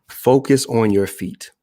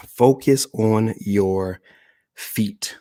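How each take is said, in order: First: Said in the usual way. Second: "Focus on your feet" slowly, pausing before "feet"; slow emphatic repeat. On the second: Shown as a demonstration.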